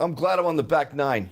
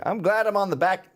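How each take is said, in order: First: Said in the usual way. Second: Old dude in a put-on Southern accent. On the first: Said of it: "I don't know why I'm doing". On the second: Old Knight of Columbus on his age, Southern accent. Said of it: "I'm doing a Southern accent".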